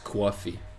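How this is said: It is said in a New York accent.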